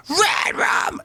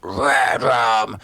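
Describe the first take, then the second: First: Very high screeching scream; different scream timbre. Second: Different scream timbre. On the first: Singer showing scream timbres, the high screech. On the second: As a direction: scream it in a less high timbre. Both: Shown as a demonstration. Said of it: "go into all different timbres".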